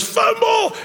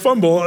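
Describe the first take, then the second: First: Sudden high shout of Fumble!; yelling fumble. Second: A louder but level call of Fumble, not pitched up; yelled fumble. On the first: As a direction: yell Fumble! way up high, full voice, to fool the defense. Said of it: "he yells". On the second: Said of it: "then they yelled". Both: Retold or imitated.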